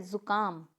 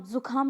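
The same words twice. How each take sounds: First: जुकाम with plain k, zu-kaam; correct pronunciation. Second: जुखाम with breathy kh, zu-khaam; wrong pronunciation. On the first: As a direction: model जुकाम without a puff on k. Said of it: "तो होता क्या है?". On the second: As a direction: demonstrate the mistake जुखाम with aspirated kh. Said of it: "नहीं होता है". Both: Shown as a demonstration.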